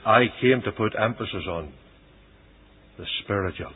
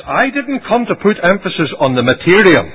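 First: Soft, lowered preaching answer; solemn affirmation. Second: High, loud preaching refusal; emphatic rejection. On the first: Christ telling the people why he came, hushed. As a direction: drop to a quiet, measured close. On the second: Christ telling the people what he refused, emphatic. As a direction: push it out forcefully as a denial. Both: Retold or imitated.

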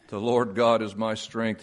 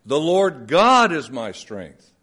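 First: Said in the usual way. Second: God stressed, slow and deliberate; slow reading with God emphasized. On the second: Shown as a demonstration. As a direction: lean on God, slowly. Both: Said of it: "shift the emphasis in different places".

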